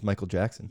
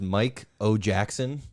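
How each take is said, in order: First: The name is said quickly, parts run together. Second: The name is said slowly, parts kept separate.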